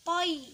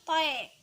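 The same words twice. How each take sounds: First: "toi" ending on a clear i glide; dibaca toi. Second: "toe" ending on an open e instead of i; salah baca toe. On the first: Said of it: "dibaca toi". ("toi" dengan akhiran i yang jelas) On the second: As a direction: let "toe" fall away to e. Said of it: "bukan toe". ("toe" berakhir bunyi e, bukan i) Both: Shown as a demonstration.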